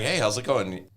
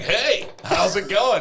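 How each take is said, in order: First: It is said in an ordinary conversational voice. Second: It is said in an exaggerated game-show voice.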